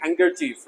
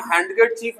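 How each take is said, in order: First: हैंडकरचीफ said as हैंकरचीफ, softer; correct pronunciation. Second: हैंडकरचीफ with the D sounded; wrong pronunciation. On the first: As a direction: drop the D in हैंडकरचीफ. (सही उच्चारण, हैंडकरचीफ में D मूक) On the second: (गलत उच्चारण, हैंडकरचीफ में "ड" बोलकर) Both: Shown as a demonstration. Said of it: "हैंडकरचीफ नहीं पढ़ेंगे".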